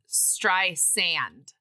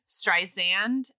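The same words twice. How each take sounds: First: The middle consonant is an s sound. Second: The middle consonant is a z sound. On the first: This is the actual pronunciation of the name. The speaker calls it right. "and it's tr- [name]" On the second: This is how many people say it. The speaker calls it wrong. "a lot of people say um uh [name], like with a Z"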